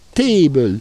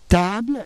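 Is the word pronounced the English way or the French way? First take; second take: English; French. First: It is said with an English vowel sound. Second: It is said with a French vowel sound. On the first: "et en anglais table" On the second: "il se prononce en français table"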